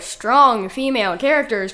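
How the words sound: It is said ironically, as if in quotes. The phrase names a shallow marketing cliché.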